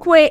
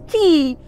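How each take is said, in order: First: The word is pronounced like 'kway'. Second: The word is pronounced like 'kee'. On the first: The speaker calls it wrong. "most of us had made this mistake of pronouncing this word as quay, but it is not quay" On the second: The speaker calls it right. "it is pronounced as key"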